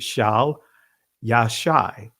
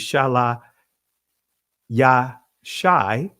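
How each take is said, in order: First: The first word is said with one syllable. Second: The first word is said with two syllables. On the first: "or you could pronounce it Shal Yashai" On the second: "If you just pronounce every letter as a syllable"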